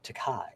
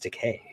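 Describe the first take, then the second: First: The last syllable does not rhyme with 'gay'. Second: The last syllable rhymes with 'gay'. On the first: The speaker calls it wrong. "it's not Takai" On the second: The speaker calls it right.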